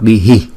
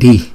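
First: The syllable ends with an echoed 'hi' sound. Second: The syllable ends plainly without an echo sound. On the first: "Chúng ta không cần đọc đi hi" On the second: "không, đi"

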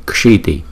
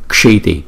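The two takes are said the same way.

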